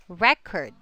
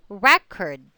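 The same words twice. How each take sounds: First: The stress is on the first syllable. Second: The stress is on the first syllable.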